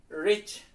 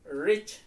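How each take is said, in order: The two takes are said the same way.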